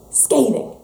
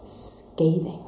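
First: Said in the usual way. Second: Whispered scathing. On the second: Real, not acted. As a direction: whisper the word "scathing" softly, breathy and hushed. Hushed word for the message.

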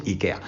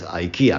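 First: Ikea said the Spanish way, "i-KE-a"; Spanish pronunciation. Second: Ikea said the English way, as "ai-KI-a"; English pronunciation. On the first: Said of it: "en español decimos ikea". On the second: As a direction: say ikea like an English speaker, "aikia". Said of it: "yo creo que todo el mundo sabe que es ikea". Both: Shown as a demonstration.

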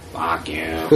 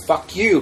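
First: Low, softer superhero growl; low, put-on masked-hero voice; Batman. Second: Said in the usual way. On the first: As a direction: drop it into a mock vigilante voice. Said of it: "doing that fucking voice". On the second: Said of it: "but I'll be like".

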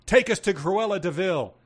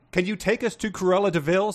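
First: Higher-pitched, mildly barked command; a touch of a bark, punched from the first word; barked order. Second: Missus voice. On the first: A narrator's reading. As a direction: bark it out like a demand. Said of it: "and barked". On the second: Acted. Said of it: "said Missus".

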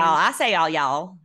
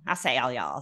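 First: "all y'all" pushed out louder and higher; insisting on y'all. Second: Said in the usual way. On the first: Shown as a demonstration. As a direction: proudly punch "all y'all" to prove the accent. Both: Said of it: "You don't sound like you have a Southern accent".

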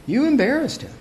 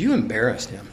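First: Much higher, imitating the complainers; high, put-on accusing voice; high-pitched mock reproach. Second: Low, soft accusation; lowered, subdued mock reproach; quiet retold reproach. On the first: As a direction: mimic a scandalized complaint up high. Retold reproach, repeated higher. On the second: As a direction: report the complaint low and under the breath. Retold reproach, first take.

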